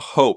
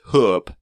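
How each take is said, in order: First: The vowel is the 'oh' sound, as in hope. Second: The vowel is the 'oo' sound, as in hoop. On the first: The speaker calls it wrong. "it's not hope" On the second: The speaker calls it right. "it's hoop"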